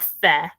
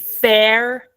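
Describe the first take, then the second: First: The final r sound is left out. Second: The final r sound is clearly pronounced.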